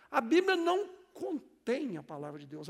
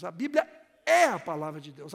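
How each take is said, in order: First: "não contém" set apart, with CONTÉM leaned on; pause, then hit "contém" as the wrong word; stress on CONTÉM. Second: "é" held long and loud, the rest lower; stress on É. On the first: Pastor correcting a common belief, stress on "contém". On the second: Pastor telling congregation what the Bible is, booming stress on "é". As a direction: hammer the word "é" and stretch it. Contrasts "é" with "contém. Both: Shown as a demonstration.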